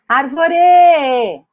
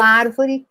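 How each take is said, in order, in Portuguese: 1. A última sílaba soa mais forte. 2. A última sílaba não é a mais forte. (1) "Parece que o re está muito mais forte que os outros" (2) "creio que funciona"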